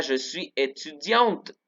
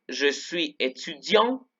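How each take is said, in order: First: "étudiante" said slowly, final T clearly heard; sounded T. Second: "étudiant" said slowly with no T at the end; silent final T. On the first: Teacher shows students the feminine form, slow careful French. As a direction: sound the T in "étudiante" but not the E, slow demo. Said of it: "Ahí sí se pronuncia la T". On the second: Teacher shows students the masculine form, slow careful French. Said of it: "no se pronuncia la T". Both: Shown as a demonstration.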